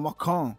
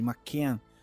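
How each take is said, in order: First: It is said with a British accent. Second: It is said with an American accent.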